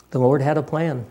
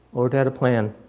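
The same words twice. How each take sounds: The two takes are said the same way.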